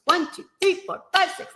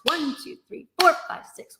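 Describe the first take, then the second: First: "one", "three" and "five" punched higher; hemiola emphasis. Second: "one" and "four" punched higher; compound meter emphasis. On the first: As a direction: count in three pairs, stressing one, three, five. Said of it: "like that". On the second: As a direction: count in two groups of three, leaning on one and four. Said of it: "you really have to emphasize". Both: Shown as a demonstration.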